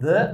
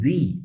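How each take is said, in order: First: The article ends in a short weak vowel. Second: The article ends in a long ee vowel. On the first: "antes de som consonantal" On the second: "antes de som vocálico"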